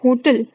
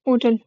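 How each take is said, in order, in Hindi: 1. शुरुआत की h की आवाज़ बोली जाती है। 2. शुरुआत की h की आवाज़ साइलेंट है। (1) "हो ह ह वाली साउंड को तुम जब यूज करोगे" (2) "इसमें एच साइलेंट रहेगा"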